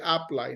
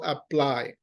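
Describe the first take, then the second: First: The stress is on the first syllable. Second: The stress is on the second syllable. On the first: The speaker calls it wrong. "So we don't go like apply" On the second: The speaker calls it right. "No, we go apply"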